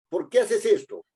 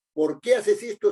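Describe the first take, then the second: First: ¿por qué haces esto? asked high, stress on qué; teacher models the question, hitting qué; question demo. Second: ¿por qué haces esto? asked high, qué stressed; question demo. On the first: Teacher models the question for students, stressing qué. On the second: Teacher repeats the example question, stressing qué. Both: Shown as a demonstration. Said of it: "es una interrogación".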